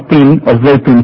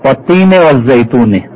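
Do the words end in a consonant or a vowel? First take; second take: consonant; vowel. First: Each word ends on its final consonant. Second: Each word ends with an added short vowel. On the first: This is the form used when pausing in recitation. "আমরা যখন থেমে পড়ছি তখন হয়তো" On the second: This is the full form with the case ending. "কিন্তু আসলে আছে"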